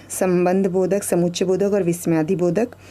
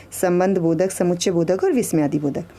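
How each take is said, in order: No difference in how they are said.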